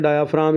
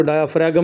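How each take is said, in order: First: डायाफ्राम said with the G silent. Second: डायाफ्रागम with a voiced g before the final m; G sounded out. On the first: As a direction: say डायाफ्राम with no g sound before the m. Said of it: "इसमें जी silent है". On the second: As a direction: say the normally silent G in डायाफ्रागम. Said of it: "डायाफ्रागम नहीं पढ़ना है". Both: Shown as a demonstration.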